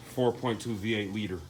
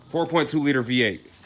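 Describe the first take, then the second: First: Said in the usual way. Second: Corrected, said louder and higher; correcting himself louder. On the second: Real, not acted. Mechanic fixing his slip to viewers, louder and higher. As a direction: punch "four point two liter V eight" up as a fix. Corrects the engine size loudly.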